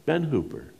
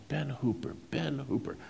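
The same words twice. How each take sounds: First: Said in the usual way. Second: Softly musing over the name, higher; trying to place a name, hushed. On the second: Retold or imitated. Craddock recalling the name.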